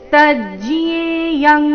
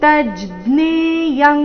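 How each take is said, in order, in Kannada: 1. ಈ ಸಂಯುಕ್ತಾಕ್ಷರ 'jya' ರೀತಿ ಉಚ್ಚರಿಸಲಾಗುತ್ತದೆ. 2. ಈ ಸಂಯುಕ್ತಾಕ್ಷರ 'jna' ರೀತಿ ಉಚ್ಚರಿಸಲಾಗುತ್ತದೆ. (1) "ನೀವು ಜಿಯ ಅಂತ ಹೇಳ್ತಾ ಇದ್ರೆ ತಜ್ಜ್ಞೇಯಂ ಈ ರೀತಿ" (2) "ನೀವು ಜ್ಞ ಜ್ಞಾನ ಜ್ಞ ಹೇಳ್ತಾ ಇದ್ರೆ"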